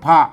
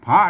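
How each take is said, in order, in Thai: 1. คำนี้ออกเสียงเป็นเสียงเอก 2. คำนี้ออกเสียงเป็นเสียงจัตวา (1) "อันนี้มันพระเลิศเสียงเอกนะครับพระ" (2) "พระนี่มันเสียงจัตวานะครับ"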